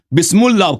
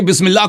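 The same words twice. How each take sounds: First: "بسم اللہ" wrongly said as "bismullah"; "بسم اللہ" as bis-mul-lah instead of bis-mil-lah; deliberate misreading. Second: Said in the usual way. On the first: Shown as a demonstration. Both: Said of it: "آپ نے غلط پڑھی بسم اللہ".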